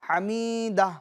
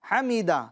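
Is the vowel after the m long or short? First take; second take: long; short. First: The vowel after the m is drawn out long. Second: The vowel after the m is kept short. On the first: The speaker calls it wrong. "उसको खींच देते हैं, ... गलत है" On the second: The speaker calls it right. "बगैर खींचे ... जल्दी पढ़ेंगे"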